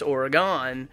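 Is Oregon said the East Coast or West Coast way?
East Coast. Oregon is said the East Coast way. "so many people that I've ever met on the East Coast, it's Oregon"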